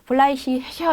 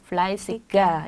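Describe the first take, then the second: First: The g is softened to an ich-sound. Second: The g is pronounced as a hard g. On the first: The speaker calls it wrong. "fleißig 이런 게 아니라" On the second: The speaker calls it right. "fleißiger 이렇게 해주시면 되고요"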